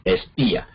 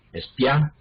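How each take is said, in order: First: Espía with í as its own stressed syllable; hiatus. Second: Espía without accented i, ia in one syllable; diphthong. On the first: Teacher showing split vowels, Espía as es-PÍ-a. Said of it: "la I forma una sílaba". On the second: Teacher showing the unaccented form, espía as es-PIÁ. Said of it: "entonces allí sería diptongo". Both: Shown as a demonstration.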